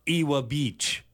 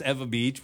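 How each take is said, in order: First: Ewa said as EE-wuh in Ewa Beach; outsider pronunciation. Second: Ewa said as EH-vuh in Ewa Beach; local pronunciation. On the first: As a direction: start Ewa with "ee" and keep the w. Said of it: "Would you rather people pronounce it as". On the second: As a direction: turn the w of Ewa into a v. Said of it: "Yeah, it's Ewa Beach". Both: Shown as a demonstration.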